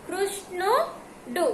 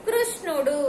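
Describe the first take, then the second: First: కృష్ణుడు broken into slow parts; syllable by syllable. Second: Said in the usual way. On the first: Shown as a demonstration. Teacher helping pupils read the word, కృష్ణుడు sounded out slowly. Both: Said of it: "ఇప్పుడు చదవండి నాన్న".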